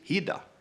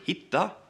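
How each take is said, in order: First: The middle consonant is a soft D. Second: The middle consonant is a hard T. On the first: "a hard T is often replaced with a D" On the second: "a hard T"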